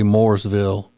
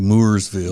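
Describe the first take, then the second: First: The town name is pronounced the standard way. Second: The town name is pronounced in a silly way. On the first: This is the proper local pronunciation. "like it's supposed to be" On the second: This is a joking family habit. "I always say Mooresville"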